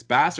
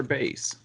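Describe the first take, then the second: First: "Bass" said like the fish; short-a pronunciation. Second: "Bass" said like "base"; long-a pronunciation. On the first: Co-host weighing both readings, short-A "Bass". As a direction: rhyme "Bass" with "mass". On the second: Co-host weighing both readings, long-A "Bass". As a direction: rhyme "Bass" with "face". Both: Shown as a demonstration. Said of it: "It's unclear if it's Bass or Bass".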